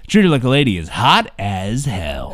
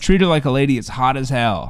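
First: It is said in a radio DJ voice. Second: It is said in a normal speaking voice.

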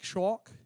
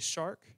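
First: The word is said with a childlike lisp. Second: The word is said clearly, without a lisp.

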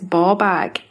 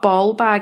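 First: It is said in a Scottish accent. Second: It is said in an English accent. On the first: The speaker calls it right. "It's ball bag" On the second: The speaker calls it wrong. "Have you ever heard an English person say ball bag and they go ball bag? That's not how you say it"

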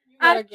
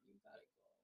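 First: It is said bluntly, without softening. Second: It is said gently and softly.

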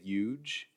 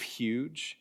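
First: The word is said in a New York accent. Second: The word is said in a standard accent. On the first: "that dying breed of New Yorkers who still say huge" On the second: "instead of huge"

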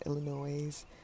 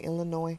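First: The final S sound is pronounced. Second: The final S sound is silent. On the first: The speaker calls it wrong. "Sorry, not Illinois" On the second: The speaker calls it right. "you don't pronounce the S"

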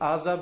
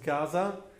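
First: The name begins without a G sound. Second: The name begins with a G sound.

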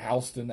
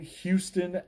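First: Houston is said with the Delaware pronunciation. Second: Houston is said with the usual pronunciation.

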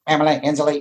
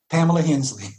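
First: It is said in an imitated character voice. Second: It is said in his natural voice.

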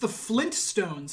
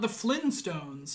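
First: A T sound is heard after Flin. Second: No T sound is heard after Flin. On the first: This is the actual name. The speaker calls it right. "it's the Flintstones" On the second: This is the misremembered name. The speaker calls it wrong. "not the Flintstones"

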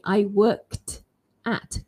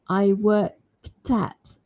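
First: The words are said slowly with 'worked' kept apart from 'at'. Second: The words are said fast with 'worked' running into 'at'. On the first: "If I say that very slowly" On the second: "But if I want to go really fast, I'd say"

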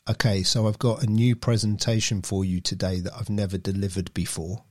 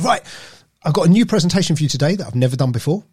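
First: It is said in a flat monotone. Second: It is said with lively, varied pitch.

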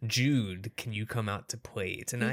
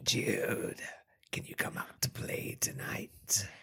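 First: It is read in a plain normal voice. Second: It is said in a put-on creepy caller voice.

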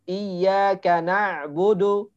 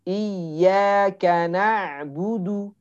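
First: The vowel in budu sounds open, like o. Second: The vowel in budu is a full rounded u. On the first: The speaker calls it wrong. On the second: The speaker calls it right.

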